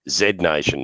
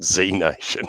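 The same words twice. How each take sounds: First: The letter is said the Australian way, zed. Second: The letter is said the American way, zee.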